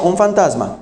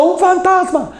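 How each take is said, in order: First: Said in the usual way. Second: Grito agudo de pánico; grítalo como discípulo aterrado; fantasma gritado. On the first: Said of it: "Ellos estaban diciendo". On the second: Retold or imitated. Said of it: "Y ellos estaban gritando". (grito agudo y asustado)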